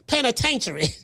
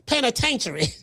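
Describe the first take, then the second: First: The word is said in a rural Southern drawl. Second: The word is said in a rural Southern drawl.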